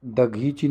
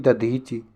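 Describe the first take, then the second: First: दघीची with gh in the middle; wrong gh sound. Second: दधीची with dh in the middle; correct dh sound. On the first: Teacher shows the misspelling, gh in दघीची. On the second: Teacher corrects the consonant, dh in दधीची. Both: Shown as a demonstration. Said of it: "दघीची नहीं".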